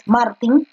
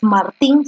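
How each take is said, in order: First: Martin with stress on the first syllable, MAR-tin; correct stress. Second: Martín with stress on the last syllable, mar-TÍN; wrong stress. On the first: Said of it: "sino es Martin". (Martin con acento en MAR) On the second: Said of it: "porque no es Martín". (Martín con acento en TÍN) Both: Shown as a demonstration.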